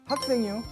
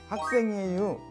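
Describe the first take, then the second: First: The ending is clipped, light and short. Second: The ending is said in full standard form. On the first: "가볍게 짧게 발음을 합니다" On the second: "이렇게 안 하고"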